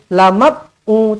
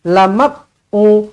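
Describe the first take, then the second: Both takes have the same delivery.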